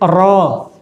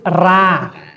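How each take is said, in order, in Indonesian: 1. r dibaca tebal dan berat. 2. r dibaca tipis dan ringan. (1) "Tebal itu roh" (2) "tipis itu ra"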